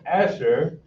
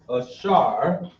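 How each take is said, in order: First: The name is said the English way. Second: The name is said the Hebrew way. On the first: "we have Asher in English" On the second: "how is Asher going to be pronounced in Hebrew"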